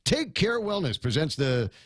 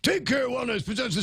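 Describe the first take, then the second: First: It is said in a natural speaking voice. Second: It is said in a strained, put-on voice. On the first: The speaker calls it wrong. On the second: The speaker calls it right.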